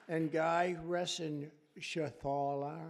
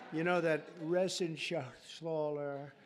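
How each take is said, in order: First: Said in the usual way. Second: Reschenthaler said slowly, syllable by syllable; slow, careful Reschenthaler; proper pronunciation. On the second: Shown as a demonstration. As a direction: spell out Reschenthaler deliberately, as the correct way. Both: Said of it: "that's actually the way you pronounce it".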